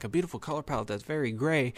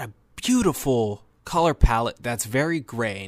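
First: Quicker, softer mimicry of a doubting listener; skeptical echo. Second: Said in the usual way. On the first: Film reviewer voicing listeners' doubt about gray visuals, mock skeptical. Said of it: "Now you're gonna be like".

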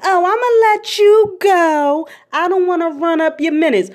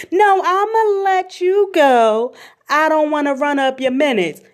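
First: Much higher, sing-song granny rushing off the phone; grandma cutting the call short; grandma brushing off. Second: Grandma refusing to keep talking; insistent grandma. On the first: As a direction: chirp it like a grandma eager to hang up. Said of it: "She be like". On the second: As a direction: draw it out to shut the talk down. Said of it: "So how is". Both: Retold or imitated.

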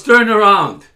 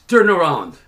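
First: Louder, higher police shout; retold insistent order. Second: Loud, firm command; retold police order. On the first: Officer repeating his order to the man, forceful shout. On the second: Officer ordering the man to turn, loud command. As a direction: bark it as an officer's order, falling at the end.

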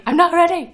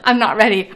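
First: High, loud panicked wail; shaky stammering panic. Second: Loud panicked cry; shaky stammering panic. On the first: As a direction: cry it out higher in panic. Repeated, higher panic. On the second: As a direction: wail it in mock panic. Panic at classes Monday. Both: Real, not acted.

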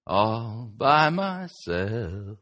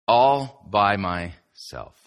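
First: Slow sung line with long held notes; sung snippet. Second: Slow, drawn-out phrase with pauses. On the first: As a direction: sing it drawn out, like the pop song. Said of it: "that song comes back to mind". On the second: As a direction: stretch out each word for emphasis. Sets up the song reference. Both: Acted.

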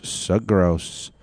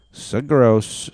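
First: Said in the usual way. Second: Grossed out. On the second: Real, not acted. Reacting to worm video.

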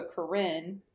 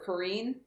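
First: "Corinne" said with a short i in the second syllable; alternative pronunciation. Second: "Corrine" said with a long ee in the second syllable; alternative pronunciation. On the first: Podcaster unsure of a character's name, Corinne with short i. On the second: Podcaster offering the other name reading, Corrine with long ee. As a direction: end "Corrine" on "-een". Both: Shown as a demonstration. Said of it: "How do you say it".

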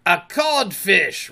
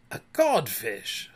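First: Slow, high, loud jibe; raised, mocking pronouncement; taunting reply. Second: Slow, stunned, at ordinary pitch; dazed, toneless echo; blank echo. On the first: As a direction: draw it out as an insult. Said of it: "replied the voice". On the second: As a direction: repeat it emptily. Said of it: "Hook echoed blank-, blankly". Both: A narrator's reading.

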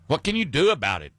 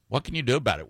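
First: What can you do about it, pushed fast; pointed question. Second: Said in the usual way. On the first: Acted. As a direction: fire the question at the listeners. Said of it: "rhetorical challenge repeated". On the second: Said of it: "same question asked again".

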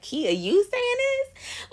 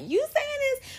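First: High, slow mock disbelief; drawn-out teasing disbelief, pitched up; incredulous friend. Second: Very high, squeaky disbelief; shrill-high teasing "you saying this?"; mock disbelief. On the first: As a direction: play the doubting friend who can't believe it. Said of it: "people hearing this is like". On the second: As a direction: act out a friend who is shocked. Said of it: "the people that know me are like".

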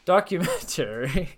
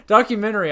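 First: "Documentary" said slowly and carefully, every syllable. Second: "Documentary" higher and louder, syllables blurred. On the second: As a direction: punch out "Documentary" loudly. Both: Shown as a demonstration. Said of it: "Why keep saying documentary".

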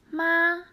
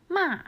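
First: ま held high and level; ま sung on one high steady pitch; first tone. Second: ま dropping sharply from high; ま said high then falling hard; fourth tone. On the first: Teacher contrasting Chinese tones, high and level. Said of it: "は一声です". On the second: Teacher contrasting Chinese tones, sharply falling. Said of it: "は四声です". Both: Shown as a demonstration.

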